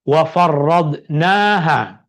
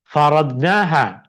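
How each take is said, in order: First: The r sound is doubled and held longer. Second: The r sound is short and single. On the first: We made it obligatory on you and those after you. "Ada sabdu pada ada tasydid, ada syaddah pada huruf ra" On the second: We made its rulings obligatory. "yang tadi faradnaha"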